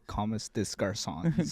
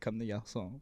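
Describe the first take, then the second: First: It is said with an English accent. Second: It is said with a French accent. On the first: This is how outsiders say it. "Some people say" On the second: This is how locals say it. "like we say"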